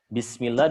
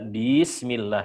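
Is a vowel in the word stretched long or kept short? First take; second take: short; long. First: The vowels are kept at normal short length. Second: A vowel is stretched out with added length. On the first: The speaker calls it right. "huruf yang nggak ada matnya" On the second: The speaker calls it wrong. "itu juga menambah huruf"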